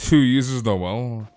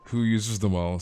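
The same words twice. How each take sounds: First: WHO drawn out slow and loud; "Who uses Noel?" with WHO stretched slowly; slow stressed question. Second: Said in the usual way. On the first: Shown as a demonstration. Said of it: "Who uses Noel, says Lucky".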